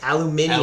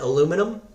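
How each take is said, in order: First: It is said the British way, as aluminium. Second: It is said the American way, as aluminum. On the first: The speaker calls it right. "Remember, they're British" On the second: The speaker calls it wrong. "Aluminum? No"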